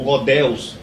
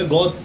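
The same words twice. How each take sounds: First: Godeus as "go-DÉUS", God fused with Deus; wrong American form. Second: God as one syllable, "gód"; English pronunciation. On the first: Teacher showing what Americans don't say, Godeus with added ending. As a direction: say Godeus with a Portuguese-style ending. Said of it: "eles não pronunciam Theos ou". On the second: Teacher correcting to what Americans say, one-syllable God. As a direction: say God with no added ending. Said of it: "Não, é God". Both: Shown as a demonstration.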